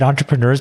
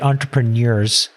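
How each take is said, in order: First: The word is said in a casual, relaxed way. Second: The word is said in a very literal way. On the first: This is the speaker's own way of saying it. "I say it entrepreneurs" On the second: This is how the other person says it. "you say it entrepreneurs. ... It's a very literal pronunciation"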